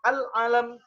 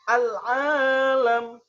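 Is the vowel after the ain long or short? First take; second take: short; long. First: The vowel after the ain is short. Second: The vowel after the ain is long. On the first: It means a flag. "kalau dibaca pendek" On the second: It means the world. "panjang ainnya"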